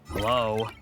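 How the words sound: It is said in a frustrated tone.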